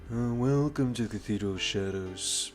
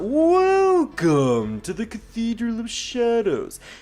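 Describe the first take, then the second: First: It is said with tired, flat, low energy. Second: It is said with hyperactive, lively energy.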